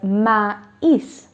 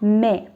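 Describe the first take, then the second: First: The two vowels are pronounced separately. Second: The vowels merge into a single sound. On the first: The speaker calls it right. "I will pronounce it as maïs" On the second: The speaker calls it wrong. "not me or mes"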